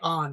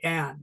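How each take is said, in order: First: The vowel is an open 'ah' sound. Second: The vowel is a short 'a' sound. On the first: The speaker calls it wrong. "Don't say on" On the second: The speaker calls it right. "Like short A, Anne"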